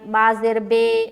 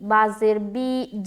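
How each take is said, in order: First: The final vowel is an Urdu-style 'e' sound. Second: The final vowel is a pure long 'ee' sound. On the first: The speaker calls it wrong. "अगर आप लोगों ने पहले मजहूल पढ़ा है" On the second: The speaker calls it right. "इस तरीके से अगर आपने पढ़ा है तो इसको दुरुस्त करें"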